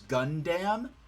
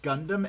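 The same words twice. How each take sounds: First: The word is said the Australian dub's way. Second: The word is said the usual way. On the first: The speaker calls it wrong. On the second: The speaker calls it right.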